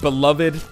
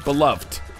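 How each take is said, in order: First: It has three syllables, stressing the last. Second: It has two syllables, ending in a 'luvd' sound. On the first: "I find the emphasis on that last syllable, it's more satisfying to say" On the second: "That's like B E L U V T"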